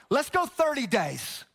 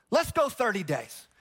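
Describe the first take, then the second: First: Drawn out. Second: Said in the usual way. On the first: Shown as a demonstration. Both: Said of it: "You having fun yet?".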